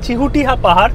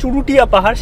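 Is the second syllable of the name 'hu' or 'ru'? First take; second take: hu; ru. First: The second syllable is said with an h sound. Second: The second syllable is said with an r sound. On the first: The speaker calls it right. "উচ্চারণটা হবে চিহুটিয়া পাহাড়" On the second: The speaker calls it wrong. "সেটা নয়"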